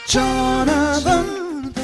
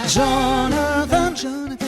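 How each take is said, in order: The two takes are said the same way.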